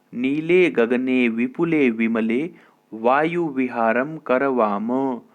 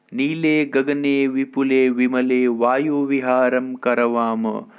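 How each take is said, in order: Both takes have the same delivery.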